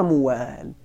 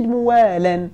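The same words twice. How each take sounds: First: موال stopped on the l, slowly: "muwaal"; pausal sukun. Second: موالا ending in an audible "-lan"; tanwin on the lam. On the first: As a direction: close موال on a bare l, no vowel or n. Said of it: "فوقف عليه بالسكون على لغة ربيعة". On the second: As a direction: sound the n at the end of موالا: "muwaalan". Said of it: "فنونت اللام فصار". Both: Shown as a demonstration.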